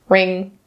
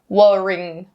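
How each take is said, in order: First: The word begins directly with an R sound. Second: The word begins with a W sound. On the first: The speaker calls it right. "just ring" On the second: The speaker calls it wrong. "we don't say wo-ring"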